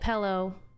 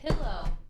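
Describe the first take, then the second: First: Pillow has a regional Washington pronunciation. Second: Pillow has a standard general pronunciation. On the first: The speaker calls it wrong. "I used to say pillow like pillow" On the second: The speaker calls it right. "But now I say pillow. As I should"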